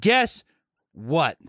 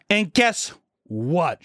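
First: Mock teacher teasing the class; high "Guess". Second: Very slow, drawn-out "And guess what?"; mock teacher, slowly drawn out; slow quote. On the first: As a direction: pop the first word up. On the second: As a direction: stretch each word like a teasing reveal. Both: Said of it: "She says that".

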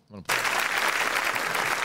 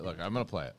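First: Slow whispered aside; real whispered aside. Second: Said in the usual way. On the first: Real, not acted. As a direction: breathe it out slowly as you start the clip.

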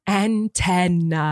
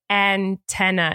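First: Antenna drawn out very slowly, unsure; slow, self-doubting antenna, stressed on TEN; anxious antenna. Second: Antenna said slowly and carefully, stress on the middle syllable; careful textbook antenna, stressed on TEN; correct antenna. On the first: Retold or imitated. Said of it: "did I say it wrong?". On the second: Shown as a demonstration. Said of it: "instead of, like".

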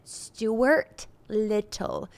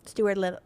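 First: Slow, careful Stuart Little, each syllable dragged out; struggling with the name. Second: "Stuart Little" rattled off quickly as one word; said fast. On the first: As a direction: ease through "Stuart Little" very slowly. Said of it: "it's my speech impediment". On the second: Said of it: "Say it fast". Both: Shown as a demonstration.

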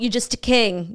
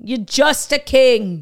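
First: Said in the usual way. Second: JUST hit harder, louder and slow; stress on JUST. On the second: Acted. Brother belittles the king, stretching JUST loudly. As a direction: punch JUST and stretch the put-down. Repeats the put-down, drawn out.

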